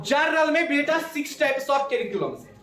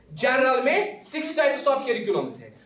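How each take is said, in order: First: Said in the usual way. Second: Slower, each word set out for the class to write; teacher slowing down to dictate; slow repeat for notes. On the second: Shown as a demonstration. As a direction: repeat it slowly so students can copy it.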